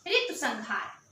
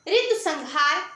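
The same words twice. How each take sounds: First: Said in the usual way. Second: ऋतु संहार said slowly, each word stressed, rising at the end; slow emphatic repeat. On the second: Shown as a demonstration. (ऋतु संहार को धीरे और ज़ोर देकर दोहराना) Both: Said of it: "teacher repeats the title".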